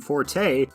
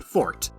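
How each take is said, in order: First: It is two syllables ending in an ay sound. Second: It is one syllable ending in a t sound. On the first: It sounds common and casual. "casual pronunciation" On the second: It sounds formal and etymologically correct. "the rare classical pronunciation"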